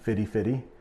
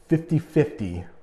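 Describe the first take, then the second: First: The middle consonant sounds almost like a D. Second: The middle consonant is a clear T sound.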